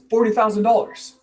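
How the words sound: The voice rises at the end. It sounds like asking whether the price is acceptable. The speaker calls it wrong. "When your voice goes up at the end of the sentence, it sounds like a question"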